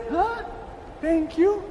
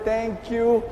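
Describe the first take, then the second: First: High, rising, disbelieving question; puzzled surprise. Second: Said in the usual way. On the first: Retold or imitated. Other frog baffled at being thanked, puzzled surprise.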